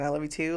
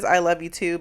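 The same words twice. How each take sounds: First: Low, soft "I love you too?", unsure if it is meant; "I love you too" put as a muted question. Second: Said in the usual way. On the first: Retold or imitated. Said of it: "she says it as a question". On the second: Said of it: "but she says it as a question".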